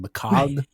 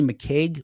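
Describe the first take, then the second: First: The last syllable has an 'o' vowel, like 'cog'. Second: The last syllable has an 'ay' or 'eg' vowel. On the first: This is how people in Scotland probably say it. "in Scotland they don't say that. It's probably McCog" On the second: This is how the speaker chooses to say it. "I'm going to say McCaig"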